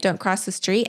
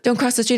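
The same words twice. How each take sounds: First: It is said in a calm, relaxed tone. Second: It is said in an anxious, alarmed tone.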